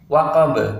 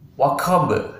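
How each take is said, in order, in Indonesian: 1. Bunyi q polos, tanpa hembusan napas. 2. Bunyi q disertai hembusan napas. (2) "bukan waqab"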